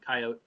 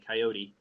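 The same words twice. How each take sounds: First: It is said the way country speakers say it. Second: It is said the way city speakers say it. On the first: "people from the country say coyote" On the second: "people from the city say coyote"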